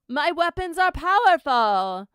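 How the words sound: It is said in a put-on character voice.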